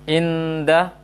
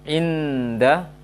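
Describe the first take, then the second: The two takes are said the same way.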